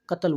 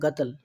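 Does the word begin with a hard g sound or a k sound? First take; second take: k sound; g sound. First: The word begins with a k sound. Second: The word begins with a hard g sound. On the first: This is how other Gulf countries say it. "दूसरी कंट्रियों में Dubai, Qatar, Kuwait में कत्ल बोलते हैं" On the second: This is the Saudi way of saying it. "यहाँ सऊदी में गतल बोलते हैं, गा करके बोलते हैं"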